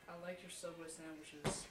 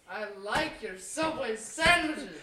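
First: It is said quietly. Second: It is said loudly.

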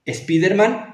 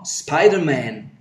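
First: An extra vowel sound comes before the s. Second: The s starts with no vowel before it. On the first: The speaker calls it wrong. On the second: The speaker calls it right. "Es el líquida"

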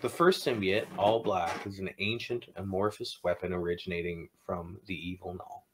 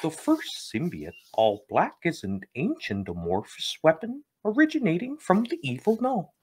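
First: It is read in his normal voice. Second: It is read in a Kermit the Frog voice.

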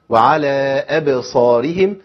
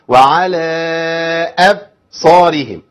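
First: The b is released with a quick bounce. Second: The b is cut off abruptly without release. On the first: The speaker calls it right. "اي بس كده" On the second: The speaker calls it wrong. "هقطع الصوت... ما قلقلتش"

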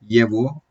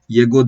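First: The middle consonant is a V sound. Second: The middle consonant is a hard G sound. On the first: The speaker calls it right. "Oradaki G harfi V sesi çıkarmaya başlıyor" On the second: The speaker calls it wrong. "Yego diye bir şey beklerim değil mi ben burada?"

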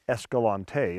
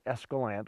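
First: The name is said in the outsider way. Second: The name is said in the local way. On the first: The speaker is from outside the area. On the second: The speaker is from the area.

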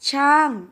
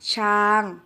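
First: The syllable has a falling tone. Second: The syllable has a level mid tone. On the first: "เสียงโท" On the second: "เสียงสามัญ"

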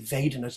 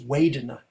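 First: The word begins with a V sound. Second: The word begins with a W sound. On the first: This is the international standard way of saying it. "the most international standard Pali is V" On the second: This is the Burmese way of saying it. "A Burmese accent is Vedana, they do it with a W"

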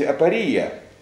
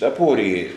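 First: The stress is not on the second syllable. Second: The stress is on the second syllable. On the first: "вообще правильно говорить апория" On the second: "привыкли ставить ударение вот на втором слоге"

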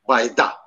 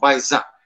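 First: The consonant before the last vowel is d. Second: The consonant before the last vowel is z. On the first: "en sondaki D" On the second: "Z de okunur"

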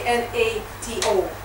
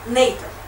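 First: Each letter is said separately, one by one. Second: It is pronounced as one single word. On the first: The speaker calls it wrong. "You never say N-A-T-O" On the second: The speaker calls it right. "an acronym is an abbreviation that can be read as a word"

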